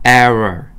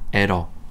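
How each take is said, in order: First: The tongue curls back without touching the roof. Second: The tongue touches the roof on the r. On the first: The speaker calls it right. "이렇게 돼야 돼요" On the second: The speaker calls it wrong. "러 할 때 천장이 닫혀. 그러면 안 됩니다"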